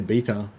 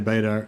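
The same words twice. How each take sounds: First: The word is said with an Australian pronunciation. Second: The word is said with an American pronunciation. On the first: "in Australia we say beta" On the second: "because the Americans say beta"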